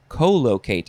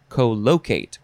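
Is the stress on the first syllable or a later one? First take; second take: first; later. First: The stress is on the first syllable. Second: The stress is on a later syllable. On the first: The speaker calls it wrong. "I want to emphasize the first syllable" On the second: The speaker calls it right. "because the word locate is in there"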